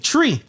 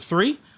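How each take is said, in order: First: The word begins with a 't' sound. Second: The word begins with a 'th' sound. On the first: The speaker calls it wrong. "I would say tree" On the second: The speaker calls it right. "I couldn't pronounce the letter, uh, the number three"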